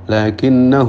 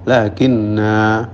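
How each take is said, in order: First: The final vowel is short, running into the next word. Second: The final vowel is long, with a stop after it. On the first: The reader continues without stopping. "kalau wasal dibaca pendek" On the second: The reader stops on this word. "kalau wakaf pada lakinna maka lakinna"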